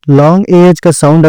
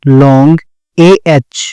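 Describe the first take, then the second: First: Said in the usual way. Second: Drawn-out एएच, each sound stretched for the class; teacher drawing out the long vowel; slow teacher demo. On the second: Shown as a demonstration. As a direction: stretch long एएच slowly so students hear the long vowel. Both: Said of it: "long एएच (teacher demo)".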